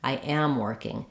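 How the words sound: It sounds argumentative, with stress on am. It hints at a denial of a claim. The speaker calls it wrong. "it sounds like you're stressing and emphasizing on the am. ... It sounds a little bit argumentative"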